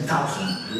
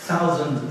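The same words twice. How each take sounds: First: Irish "thousand" with TH as T, lower; Irish accent. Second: Said in the usual way. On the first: Shown as a demonstration. Showing how Irish teachers pronounce it, "thousand" with an Irish hard T. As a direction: say "thousand" as "tousand", Irish-style. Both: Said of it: "la T H te la pronuncian como T".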